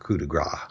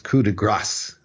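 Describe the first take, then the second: First: The final consonant of grace is left off. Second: The final consonant of grace is pronounced. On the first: The speaker calls it wrong. "French words often leave the consonant sound off at the end" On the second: The speaker calls it right. "when there's an E following the consonant, then you do pronounce the consonant at the end"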